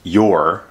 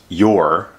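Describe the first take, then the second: First: It is said as one short contracted syllable. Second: It is said as one short contracted syllable.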